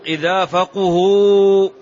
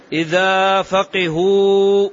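First: فقهوا drawn out as "faquhu", u after the qaf; damma vowelling. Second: فقهوا drawn out as "faqihu", i after the qaf; kasra vowelling. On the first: Teacher showing the second vowelling, فقهوا said slowly as "faquhu". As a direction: slowly intone فقهوا with "qu" in the middle. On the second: Teacher showing the first vowelling, فقهوا said slowly as "faqihu". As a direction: slowly intone فقهوا with "qi" in the middle. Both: Shown as a demonstration. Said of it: "أنا سأضبط ضبطين".

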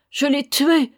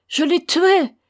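First: Higher, louder wail of guilt; grieving mother crying out; anguished cry. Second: Much higher, louder cry breaking into a wail; mother's peak of grief, screamed; anguished scream. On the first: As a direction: cry out in despair. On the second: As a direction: scream it to the sky. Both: A narrator's reading. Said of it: "criait-elle".

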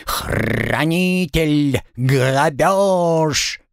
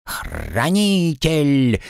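First: Slow squawked parrot cries; bird folk. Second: Slow chirped parrot cry; bird folk. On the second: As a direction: chirp the word out slowly. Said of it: "внезапно чирикнул Пэт". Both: Acted.

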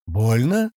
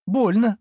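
First: "Больно" as a question, rising from usual pitch. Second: "Больно" pitched high, lightly pained; pained answer. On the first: Man checks the girl's bite, asking "Больно" with a rise. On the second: Girl answers about her knee, high pained "Больно". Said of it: "поморщившись, добавила она". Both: A narrator's reading.

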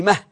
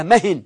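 First: Said in the usual way. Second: مهن said "mahin", with a final n; مهن ending in a clear nun; tanween added. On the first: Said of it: "يقال فيها مهن". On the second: Shown as a demonstration. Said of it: "يقال فيها".

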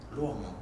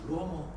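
The two takes are said the same way.

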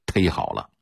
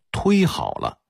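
First: 忒好了 with the dialect tēi, no u glide; Beijing local pronunciation. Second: 忒好了 with 忒 regularised to tuī; standardised pronunciation. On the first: Lecturer shows what Beijingers still say, 忒好了 with tēi. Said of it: "北京人往往还说土音儿". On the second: Lecturer shows the official reading, 忒好了 said with tuī. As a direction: say 忒好了 the normalised way, opening on tuī. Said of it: "发音规划为". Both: Shown as a demonstration.

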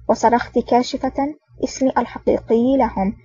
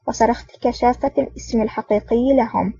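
First: "كاشفة" read as kaashifa; long first a and short i in "كاشفة"; corrected word. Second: "كشافة" read as kashafa, in place of kashifa; misread word. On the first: Corrected retake of sentence. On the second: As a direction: slip on "كشافة", long a in second syllable. Misread word, retaken next line. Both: Real, not acted.

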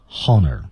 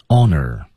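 First: "honor" wrongly said with an audible H; 错误读音示范. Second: "Honor" with a silent H; H不发音. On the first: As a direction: sound the h, like "honner" with a breath first. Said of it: "可千万别读成". (把“honor”错读成带h音的开头) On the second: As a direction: start "Honor" straight on the vowel. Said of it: "H不发音". (“Honor”开头不发h音，直接读元音) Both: Shown as a demonstration.

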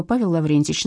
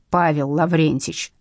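First: Said in the usual way. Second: Slow, low, indignant correction; each name drawn out in offence; mild angry yell. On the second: A narrator's reading. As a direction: correct your name slowly and firmly. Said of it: "заорал Семеренко".

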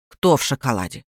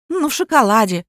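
First: Low-pitched, puzzled aunt voice; gruff confused aunt. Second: Said in the usual way. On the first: A narrator's reading. Aunt echoes the stranger's words, low and baffled. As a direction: drop the voice low for a baffled question.

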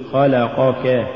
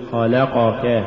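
First: خلقك with even short vowels; full vowels. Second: خلقك with short vowels distorted; uneven vowels. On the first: Teacher models correct recitation, خلقك evenly voweled. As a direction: give each syllable of خلقك equal room. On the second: Teacher shows crooked reading, خلقك uneven. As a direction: lose the even timing of خلقك. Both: Shown as a demonstration. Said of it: "ولا تقل".

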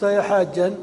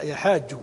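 First: Louder mock call to every pilgrim; calling out to all. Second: Said in the usual way. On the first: Shown as a demonstration. Teacher shows the wrong call to a thirsty pilgrim, louder. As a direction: call out to the whole crowd, a bit louder. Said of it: "لو قلت". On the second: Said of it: "لا،".

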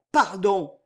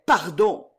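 First: "pardon!" falling, final and resigned; pleading murmur. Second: "pardon," rising, begging for mercy; pleading murmur. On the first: Kneeling governor begs forgiveness, falling plea on "pardon!". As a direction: let "pardon!" drop in defeated supplication. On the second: Kneeling governor begs forgiveness, rising plea on "pardon,". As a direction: lift "pardon," like a frightened plea. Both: A narrator's reading. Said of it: "murmura le marquis de Machaut".

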